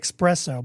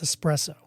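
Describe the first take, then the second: First: It is said with an 'ex' sound at the start. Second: It is said with an 'ess' sound at the start. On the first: The speaker calls it wrong. "Some people say espresso" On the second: The speaker calls it right. "but it's espresso. There's no X in it"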